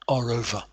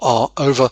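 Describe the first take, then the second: First: An R sound joins the two words. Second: No R sound joins the two words. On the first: The speaker calls it right. "what we call an intrusive R. The R comes in there" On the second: The speaker calls it wrong. "So it's not"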